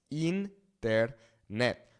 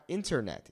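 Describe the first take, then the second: First: Internet as een-tehr-net, slowly; Spanish internet: een, tehr, net; Spanish pronunciation. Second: Said in the usual way. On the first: Shown as a demonstration. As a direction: open internet with an ee sound, syllable by syllable. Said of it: "the I in Spanish makes that E sound". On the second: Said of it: "It's not internet".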